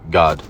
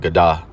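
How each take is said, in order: First: The word ends on a consonant sound. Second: The word ends with an extra vowel sound. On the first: The speaker calls it right. "You will drop that a right here, and it will just be God" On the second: The speaker calls it wrong. "you wouldn't say gada"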